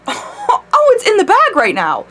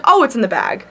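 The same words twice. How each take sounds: First: Much higher, laughing through the words; giddy with glee, bursting into laughter; gleeful laughing. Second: Said in the usual way. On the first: Retold or imitated. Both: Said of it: "So I was like".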